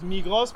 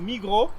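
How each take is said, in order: First: The name is read out as it is spelled. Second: The name is said with a French pronunciation. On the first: "Write it Migros" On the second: "but you pronounce it French"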